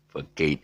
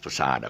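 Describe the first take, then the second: First: The middle consonant sounds like a hard k. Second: The middle consonant sounds like a soft s. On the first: The speaker calls it wrong. "Don't ever pronounce this as facade" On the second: The speaker calls it right. "actually it's pronounced as facade"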